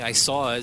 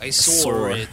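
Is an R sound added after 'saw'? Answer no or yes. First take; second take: no; yes. First: No R sound is added after 'saw'. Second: An R sound is added after 'saw'. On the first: "instead of saying" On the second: "they'll be like"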